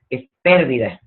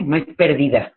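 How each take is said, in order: First: Pérdida with the stress on the first syllable, PÉR-di-da; right stress. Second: Pérdida said as perdída, stress on the second syllable; wrong stress. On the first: A speaker teaching the correct stress on the word. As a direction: hit the "pér" of pérdida firmly. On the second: A speaker showing the wrong stress on the word. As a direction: put the weight on "di" in perdída, not on the first syllable. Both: Shown as a demonstration. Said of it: "ojo, con acento".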